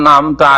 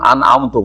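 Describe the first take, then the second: First: The word ends with an 'a' vowel. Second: The word ends with a 'u' vowel. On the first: You, God, have bestowed favour. The speaker calls it right. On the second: I have bestowed favour. The speaker calls it wrong.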